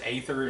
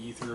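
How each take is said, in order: First: The first vowel is not an 'ee' sound. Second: The first vowel is an 'ee' sound. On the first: This is the speaker's own pronunciation. "I pronounce it Aether" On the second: This is a possible alternative pronunciation. "It could be Ether"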